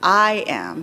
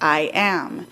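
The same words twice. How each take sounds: First: The stress falls on the word I. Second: The stress falls on the word am. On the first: The speaker calls it wrong. "Not I am" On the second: The speaker calls it right. "but I am. So we would mark that as unstressed, stressed"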